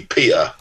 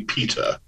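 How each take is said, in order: First: Cockney accent, glottal stop for the T in "Peter". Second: Posh English accent, crisp T in "Peter". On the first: Author showing how Cockney would be, Cockney accent. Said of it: "if you were doing Cockney". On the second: Author showing how posh would be, posh English accent. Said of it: "If you're doing posh". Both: Shown as a demonstration.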